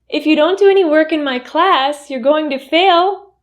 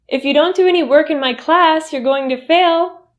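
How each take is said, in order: First: The voice rises at the end. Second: The same.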